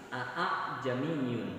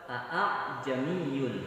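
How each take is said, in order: The two takes are said the same way.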